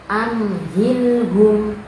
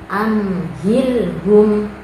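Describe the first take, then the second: The two takes are said the same way.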